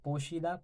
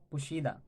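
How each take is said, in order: First: पोशीदा said with a clear o as po-shee-da, rising at the end; poshida variant. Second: पुशीदा said with a short u as pu-shee-da, falling at the end; pushida variant. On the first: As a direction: say पोशीदा with a rounded o in the first syllable. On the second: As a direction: say पुशीदा with a short u in the first syllable. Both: Shown as a demonstration. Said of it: "पुशीदा भी कहा जाता है".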